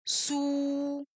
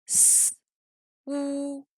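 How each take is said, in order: First: "sou" blended into one soft, held syllable; drawn-out level sou in one piece; whole syllable. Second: "S, ou" split, bare s then held ou; S and ou as two separate sounds; separated sounds. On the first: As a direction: join s and ou, softly, on an even pitch. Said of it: "la syllabe entière". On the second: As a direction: hiss S alone, pause, then a level ou. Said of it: "en séparant la consonne s et les voyelles". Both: Shown as a demonstration.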